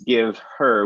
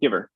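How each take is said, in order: First: Two separate words with the h sound. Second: One linked word without the h sound. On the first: "two separate words" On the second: "we get giver"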